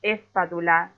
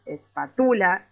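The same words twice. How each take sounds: First: "espátula" slowly, as esPÁtula, leaning on "pá"; slow, overdone stress in "espátula"; exaggerated stress test. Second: "espátula" slowly, as espaTÚla, leaning on "tu"; slow, silly-sounding misplaced stress on "espátula"; exaggerated stress, wrong syllable. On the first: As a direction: stretch out "espátula" to test its accent. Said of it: "es exagerando un poco". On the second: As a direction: drag out "espátula" with the accent moved to "tu". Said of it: "por más ridículo que suene". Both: Shown as a demonstration.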